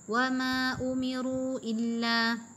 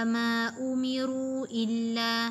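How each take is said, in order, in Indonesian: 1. Vokal panjang ditahan selama dua harakat. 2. Vokal panjang ditahan selama dua harakat.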